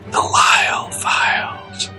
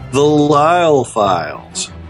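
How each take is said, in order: First: It is said in a whisper. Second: It is said in a normal speaking voice. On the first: The speaker calls it right. "I like when he whispers it" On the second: The speaker calls it wrong. "That wasn't good at all"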